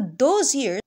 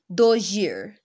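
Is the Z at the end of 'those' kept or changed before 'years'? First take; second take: kept; changed. First: The Z at the end of 'those' is kept before 'years'. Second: The Z at the end of 'those' changes to match the Y of 'years'. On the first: "So those years" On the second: "will become like those year. The Z would become Y to match the palatal sound"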